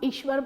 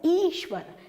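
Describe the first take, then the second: First: The first vowel is a short i. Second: The first vowel is a long ee. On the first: The speaker calls it wrong. "जैसे हम ईश्वर बोलते हैं" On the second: The speaker calls it right. "बड़ी ई यहां पर आनी चाहिए थी"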